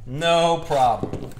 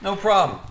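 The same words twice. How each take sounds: First: No problem stretched out very slowly; slow, drawn-out No problem. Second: Said in the usual way. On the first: Shown as a demonstration. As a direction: drag out No problem lazily.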